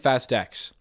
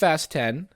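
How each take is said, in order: First: The last word is said as the letter X. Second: The last word is said as the number ten. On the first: The speaker calls it wrong. "I've been saying Fast X" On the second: The speaker calls it right. "I know it's Fast ten"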